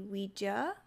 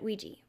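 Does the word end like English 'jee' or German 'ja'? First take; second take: German ja; English jee. First: The word ends with a German 'ja' sound. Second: The word ends with an English 'jee' sound. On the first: This follows the French and German words for yes. "technically, it would be Ouija" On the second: This is the speaker's usual everyday pronunciation. "I have always said Ouija"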